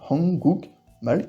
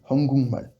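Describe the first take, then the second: First: A k sound comes before the m. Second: An ng sound comes before the m.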